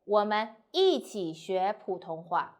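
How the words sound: The stress falls on the word 一起. We learn together, not by ourselves. "if you want to emphasize 一起 together"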